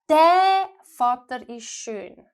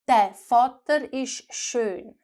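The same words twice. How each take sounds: First: The first word is said with strong stress. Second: The first word is said lightly, without stress. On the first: This particular father is handsome. "if I want to emphasize this father" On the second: The father is handsome. "I said"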